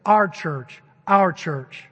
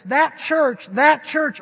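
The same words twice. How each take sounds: First: Our leaned on hard and loud, proudly owning church; stress on Our. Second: Loud, high, pointing far off with that church; distant that church. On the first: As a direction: punch Our, as if it were yours. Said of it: "No, they talk like this". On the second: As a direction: say that church as if it were someone else's. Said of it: "A people that don't talk like this". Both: Shown as a demonstration.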